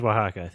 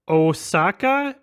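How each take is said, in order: First: It is said as wa-ha-ka, with an h sound. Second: It is said like the Japanese city Osaka. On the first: The speaker calls it right. "It is Oaxaca" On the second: The speaker calls it wrong. "Is Osaka how I pronounce it?"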